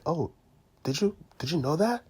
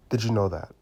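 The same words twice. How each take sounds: First: Did you know that, rising at the end; rising question. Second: "Did you know that?" falling flat at the end; falling statement. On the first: Door-to-door salesman demos a rising, inviting tune. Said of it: "when I have a higher intonation". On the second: Door-to-door salesman demos a falling, certain tune. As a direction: drop "that?" down, certain and closed. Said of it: "Each of this tonality is expressing a different message". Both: Shown as a demonstration.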